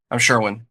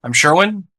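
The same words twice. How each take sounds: First: "Sherwin" dropping at the end; downward inflection. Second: "Sherwin" raised high as a question; upward inflection. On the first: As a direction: settle down on "Sherwin" as a statement. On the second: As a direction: push the pitch up on "Sherwin". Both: Shown as a demonstration. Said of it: "Do the same thing".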